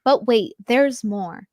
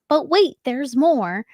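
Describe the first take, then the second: First: Said in the usual way. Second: Slow, drawn-out infomercial pitch. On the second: Shown as a demonstration. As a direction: sell it like a TV ad host. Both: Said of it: "You guys have me sounding like an infomercial".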